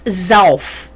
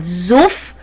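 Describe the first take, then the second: First: The vowel is an 'ow' sound. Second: The vowel is a short 'oo' sound. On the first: It is the standard form of the word. "but it's Zauf" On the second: It sounds like low-life regional slang. "it is actually not Zuff"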